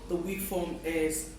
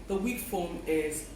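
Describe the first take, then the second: Both takes have the same delivery.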